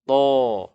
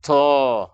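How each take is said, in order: First: TO heavy, with no puff of air; to tebal tertahan. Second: TO with a puff of air after the T; breathy aspirated T in TO; salah, berangin. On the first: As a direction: hold breath back on a rounded TO. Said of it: "terangkat pangkal lidah". (TO dibaca tebal tanpa angin) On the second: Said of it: "ada angin keluar". (TO dibaca salah dengan angin keluar) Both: Shown as a demonstration.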